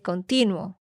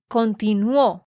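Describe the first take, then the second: First: The stress falls on the middle syllable. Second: The stress falls on the last syllable. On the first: The speaker calls it wrong. "porque tú dijiste continuo" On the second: The speaker calls it right. "Tienes que decir Bolívar continuó"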